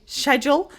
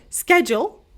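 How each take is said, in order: First: "schedule" starting with SH, as SHED-jool; British schedule. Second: "schedule" starting with SK, as SKED-jool; American schedule. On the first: Teacher showing one habit of hers, "schedule" with British SH. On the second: Teacher showing her other habit, "schedule" with American SK. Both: Shown as a demonstration. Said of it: "sometimes I say schedule".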